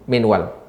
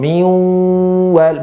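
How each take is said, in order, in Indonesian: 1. Bunyi n diucapkan dengan jelas sebelum w. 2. Bunyi n dihilangkan dan menyatu dengan w. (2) "dibaca dengan id idgham miwal"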